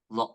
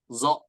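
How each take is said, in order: First: The letter is said as a heavy emphatic sound. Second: The letter is said as a plain z sound. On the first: The speaker calls it right. "Padahal bukan zo tapi dha dha dha" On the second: The speaker calls it wrong. "dia baca hurufnya zo gitu ya"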